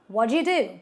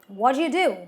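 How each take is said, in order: Both takes have the same delivery.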